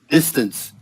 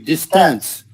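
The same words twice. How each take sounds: First: The stress is on the first syllable. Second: The stress is on the second syllable. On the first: The speaker calls it right. "stress on the first syllable" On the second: The speaker calls it wrong. "Otherwise, it would be distance"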